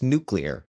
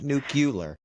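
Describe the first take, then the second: First: The second part is said like 'clear'. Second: The second part is not said like 'clear'. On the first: The speaker calls it right. "but it's nuclear" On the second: The speaker calls it wrong. "not nuclear"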